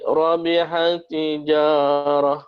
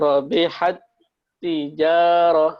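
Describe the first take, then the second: First: The doubled t runs straight through without holding. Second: The doubled t is held, like a brief comma. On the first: The speaker calls it wrong. "Jangan sampai" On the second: The speaker calls it right. "itu kan seakan-akan dia kayak ada koma gitu kan"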